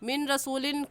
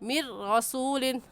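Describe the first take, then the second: First: A clear n sound comes before the r. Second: The n merges into a doubled, held r. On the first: The speaker calls it wrong. "कहना गलत है" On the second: The speaker calls it right. "सही है"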